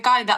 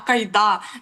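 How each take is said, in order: First: The stress falls on the first syllable. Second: The stress falls on the later syllable. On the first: The speaker calls it wrong. "та не Кайда" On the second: The speaker calls it right. "що наголоска Іда"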